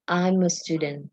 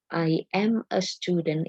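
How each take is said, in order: First: The words are run together in one linked flow. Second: Each word is said separately, not linked. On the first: "itu kan linking sound" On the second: "itu kan tidak connect ya"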